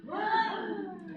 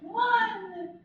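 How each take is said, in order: First: High, loud word gasped in; inhaled speech. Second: High word on an inhaled gasp; inhaled speech. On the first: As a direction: call it out on the in-breath. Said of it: "on that gasp". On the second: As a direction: say it while gasping in. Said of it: "if you went, "One," on that gasp". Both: Shown as a demonstration.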